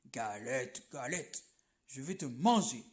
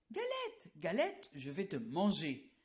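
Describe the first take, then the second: First: Much lower growled bear voice; bear's big voice. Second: Sing-song rabbit call sliding down to a mock threat; rabbit crying out. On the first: Acted. Bear to the galette, deep growling threat. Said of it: "grogne l'ours de sa grosse voix". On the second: Rabbit to the galette, a lightly voiced playful threat. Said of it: "crie le lapin".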